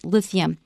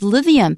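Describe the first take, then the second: First: The th sound is voiceless. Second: The th sound is voiced. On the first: The speaker calls it right. "So the T H is voiceless" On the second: The speaker calls it wrong. "I originally said lithium"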